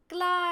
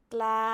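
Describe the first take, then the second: First: ใกล้ high and falling, louder. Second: ใกล้ flat and louder. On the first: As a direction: fall on ใกล้. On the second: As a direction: say ใกล้ level. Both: Shown as a demonstration.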